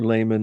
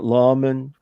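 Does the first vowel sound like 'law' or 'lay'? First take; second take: lay; law. First: The first vowel sounds like 'lay'. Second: The first vowel sounds like 'law'. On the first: This is the common habit among Mormons. "a lot of Mormons have become in the habit of saying layman" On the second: This follows the Latin pronunciation. "like from Latin"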